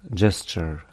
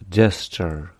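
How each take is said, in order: No difference in how they are said.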